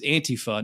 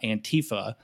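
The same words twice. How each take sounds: First: The stress falls on the first syllable. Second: The stress falls on the second syllable. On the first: The speaker calls it right. "you would fucking know that it's Antifa" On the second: The speaker calls it wrong. "not Antifa"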